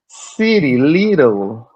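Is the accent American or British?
American. Spoken with an American accent. The speaker calls it wrong. "o sotaque é horroroso"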